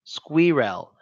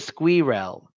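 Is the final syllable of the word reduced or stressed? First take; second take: stressed; stressed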